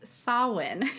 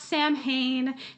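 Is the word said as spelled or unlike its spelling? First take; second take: unlike spelling; as spelled. First: It is said very differently from its spelling. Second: It is said closely following its spelling. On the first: The speaker calls it right. "It's Samhain is how we would pronounce it" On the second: The speaker calls it wrong. "It's not Samhain"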